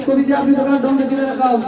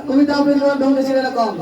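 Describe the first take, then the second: No difference in how they are said.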